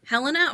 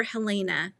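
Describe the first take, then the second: First: "Helena" with stress first and a short middle vowel; HEL-uh-nuh pronunciation. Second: "Helena" with a long AY in the middle; heh-LAY-nuh pronunciation. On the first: Host checking a viewer's name, saying "Helena" as HEL-uh-nuh. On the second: Host checking a viewer's name, saying "Helena" as heh-LAY-nuh. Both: Shown as a demonstration. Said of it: "Helena or Helena?".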